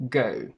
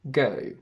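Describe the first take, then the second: First: The vowel ends with little lip rounding. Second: The vowel ends with little lip rounding.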